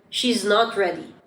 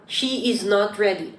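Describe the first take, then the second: First: "She's" run into one syllable; natural, linked "She's"; contracted form. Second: "She is" as two full words; careful, full "She is"; uncontracted form. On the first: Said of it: "Native speakers love using contractions". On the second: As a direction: say "She is" separately, without contracting. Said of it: "It would sound better if you say". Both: Shown as a demonstration.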